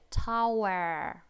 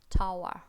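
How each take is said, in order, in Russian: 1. Слово заканчивается слышимым звуком r. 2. Слово заканчивается без звука r. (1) "Р в американском произносим" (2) "В британском это будет как tower"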